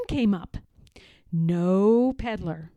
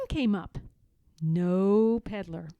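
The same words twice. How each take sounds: The two takes are said the same way.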